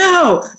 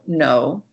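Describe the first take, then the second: First: The word is shouted in a raised voice. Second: The word is said quietly in a normal tone. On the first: This would frighten the listener. The speaker calls it wrong. "Raising my voice and yelling at him would be very scary" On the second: The hand is simply being taken away. The speaker calls it right. "I do say no quietly in a normal tone"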